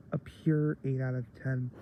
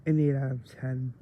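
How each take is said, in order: First: Pure leaned on for emphasis; a firm, emphatic pure; stress on pure. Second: Said in the usual way. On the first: Real, not acted. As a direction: hit the word pure.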